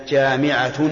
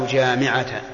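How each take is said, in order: The two takes are said the same way.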